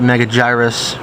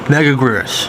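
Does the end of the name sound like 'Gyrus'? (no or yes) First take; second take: yes; no. First: The ending sounds like the word 'Gyrus'. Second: The ending does not sound like 'Gyrus'. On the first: Some other people say it this way. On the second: This is how the speaker says it.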